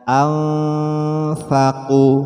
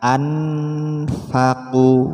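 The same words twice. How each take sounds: First: The n is hidden in a nasal hum. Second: The n is pronounced clearly before the f. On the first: The speaker calls it right. "memasukkan suara nun mati pada fa" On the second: The speaker calls it wrong.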